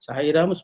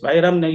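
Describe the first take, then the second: First: The word is said gently and smoothly. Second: The word is said loudly and forcefully. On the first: The speaker calls it right. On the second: The speaker calls it wrong. "ఈయన గట్టిగా పలుకుతాడు"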